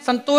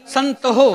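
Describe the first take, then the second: First: "ਸੰਤੋ" run together as "santo", no h; merged mispronunciation. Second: "ਸੰਤ ਹੋ" with an audible h after the t; separately sounded h. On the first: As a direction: drop the h and put the o straight on the t in "ਸੰਤੋ". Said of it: "ਸੰਤੋ ਨਹੀਂ ਕਹਿਣਾ". ("ਸੰਤੋ" ਹਾਹੇ ਤੋਂ ਬਿਨਾਂ ਜੋੜ ਕੇ) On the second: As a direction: keep "ਹੋ" as its own syllable after "ਸੰਤ". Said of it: "ਹਾਹੇ ਦੇ ਔਂਕੜ ਲੱਗੀ ਉਚਾਰਨ ਕਰਨੀ ਹੈ". ("ਸੰਤ ਹੋ" ਵਿੱਚ ਹਾਹਾ ਵੱਖਰਾ ਉਚਾਰ ਕੇ) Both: Shown as a demonstration.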